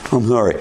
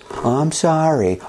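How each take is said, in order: First: The apology is said in a grudging, unwilling tone. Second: The apology is said in a sincere-sounding tone. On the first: The child apologizes only because told to. The speaker calls it wrong. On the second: The child performs the expected apologetic tone. The speaker calls it right.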